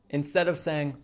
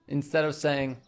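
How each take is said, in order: The two takes are said the same way.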